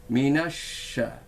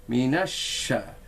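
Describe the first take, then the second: Both takes have the same delivery.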